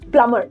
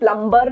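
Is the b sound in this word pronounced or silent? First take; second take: silent; pronounced. First: The b sound is silent in the middle. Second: The b sound is pronounced in the middle. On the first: The speaker calls it right. "plumber में भी b silent होता है" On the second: The speaker calls it wrong. "plumber नहीं बोलते हैं"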